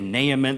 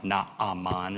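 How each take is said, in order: First: The name is said with an English pronunciation. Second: The name is said with a Hebrew pronunciation. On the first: This is the customary pronunciation. "We usually say Naaman" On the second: This is the original pronunciation. "I think it's supposed to be pronounced Naaman"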